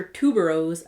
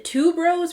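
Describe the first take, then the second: First: "tuberose" as a second guess, pitch falling; alternative pronunciation of tuberose. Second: "tuberose" said higher, as a first guess; first pronunciation of tuberose. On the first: Vlogger unsure of a scent name, trying "tuberose" another way. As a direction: try "tuberose" the other way, dropping in pitch. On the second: Vlogger unsure of a scent name, trying "tuberose" one way. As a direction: try "tuberose" one way, pitched up. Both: Shown as a demonstration. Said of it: "is it tuberose or tuberose".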